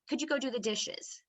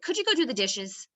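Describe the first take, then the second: First: It is asked in a friendly, polite tone. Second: It is asked in an angry, irritated tone. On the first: It is a nice request. The speaker calls it right. "That sounds like a nice asking tone" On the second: The asker is upset. The speaker calls it wrong. "That sounds like I'm angry"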